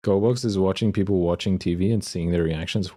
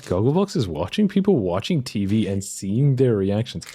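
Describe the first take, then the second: First: Said in the usual way. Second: Baffled, emphatic re-reading; incredulous. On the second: Real, not acted. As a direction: repeat it in disbelief, stressing words. Baffled repeat after swearing.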